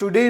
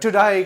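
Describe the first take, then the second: First: The word ends with an 'ay' vowel. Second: The word ends with an 'eye' vowel. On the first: The speaker calls it wrong. "टुडे नहीं कहा जाता" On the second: The speaker calls it right. "टुडाई कहा जाता है"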